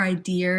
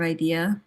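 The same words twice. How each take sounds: First: "idea" ending in an R; "idear" with final R. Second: Said in the usual way. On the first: Shown as a demonstration. Asking about local speech, idea with an added R. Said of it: "Or idea instead of idea". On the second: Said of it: "instead of idea".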